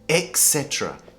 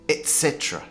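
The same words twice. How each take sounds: First: The first word sounds like 'ex'. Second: The first word sounds like 'et'. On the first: The speaker calls it wrong. "they say et cetera. E-X, it sounds like et cetera" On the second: The speaker calls it right. "But it should be pronounced et cetera"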